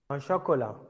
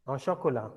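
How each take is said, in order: Both takes have the same delivery.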